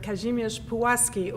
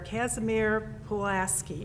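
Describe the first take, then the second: First: The name is said with Polish pronunciation. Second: The name is said with American pronunciation.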